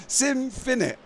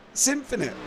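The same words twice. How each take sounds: The two takes are said the same way.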